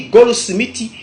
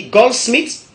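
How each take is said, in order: First: "goldsmithy" as go-lo-smi-ti; Godié pronunciation. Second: "goldsmith" in two syllables, ending in t; English pronunciation. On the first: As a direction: add vowels: go-lo-smi-ti. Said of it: "en Gaudier, on dit". (« goldsmithy » à la godié, go-lo-smi-ti) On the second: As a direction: say gol-smit with a closed ending. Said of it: "En anglais, on dit". (« goldsmith » à l'anglaise, deux syllabes) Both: Shown as a demonstration.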